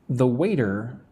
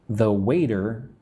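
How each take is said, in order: Both takes have the same delivery.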